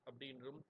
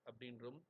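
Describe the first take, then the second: No difference in how they are said.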